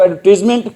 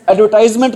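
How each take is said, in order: First: एडवर्टाइजमेंट as "ad-ver-tiz-ment", no "eye" sound; correct English pronunciation. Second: एडवर्टाइजमेंट with "tize" rhyming with "eyes"; pronunciation to avoid. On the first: Teacher checking the English word with students, एडवर्टाइजमेंट said with "tiz" in place of "tize". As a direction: give एडवर्टाइजमेंट a "tiz" third syllable. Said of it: "English में बोलते हैं". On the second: Teacher showing what not to say, एडवर्टाइजमेंट with an "eye" sound in "tize". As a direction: stretch the third syllable of एडवर्टाइजमेंट to "tize". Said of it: "क्या नहीं बोलते इसको".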